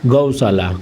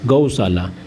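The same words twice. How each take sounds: Both takes have the same delivery.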